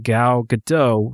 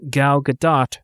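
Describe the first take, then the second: First: Gadot ends with 'oh' and no T. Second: Gadot ends with a short 'ot' sound. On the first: "nor Gal Gadot rhymes with Merlot" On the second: "not Gal Gadot rhymes with spot"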